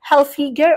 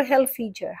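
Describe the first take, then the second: First: Hilfiger with a hard g, as in "go". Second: Hilfiger with a soft g, as in "gem". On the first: Vlogger unsure of brand name, Hilfiger with hard g. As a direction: say Hilfiger ending like "figure". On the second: Vlogger unsure of brand name, Hilfiger with soft g. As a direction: say Hilfiger ending like "fidger". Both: Shown as a demonstration. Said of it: "How to pronounce this one?".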